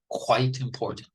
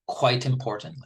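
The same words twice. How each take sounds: First: The word quite is said with strong stress. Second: The word quite is said without special stress.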